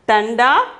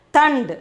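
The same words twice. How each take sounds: First: "tanda" in two syllables, ending on an open a; tanda with final vowel. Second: "tand" in one syllable, stopping on the d; tand without final vowel. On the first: Teacher contrasts two words, "tanda" with its final vowel sounded. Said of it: "So, here". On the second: Teacher contrasts two words, "tand" cut off at the d. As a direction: drop the last a, just "tand". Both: Shown as a demonstration.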